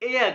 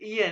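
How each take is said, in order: First: The first vowel is an open 'ay' sound. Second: The first vowel is a close 'ee' sound. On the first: The speaker calls it right. "एया कहना इसको" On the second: The speaker calls it wrong. "ईया नहीं कहना"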